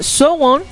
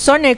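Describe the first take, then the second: First: It has two syllables, like 'so-won'. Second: It has one syllable, like 'sone'. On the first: This is how it is said in Korea. The speaker calls it right. "en coreano se pronuncia algo así como Sowon" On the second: This is how it is said in Latin America. The speaker calls it wrong. "No sone, como lo decimos acá en las Américas Latinas"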